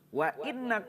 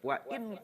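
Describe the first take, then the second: First: The n sound is doubled and held. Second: The n sound is short and light. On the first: "wa tasdidi"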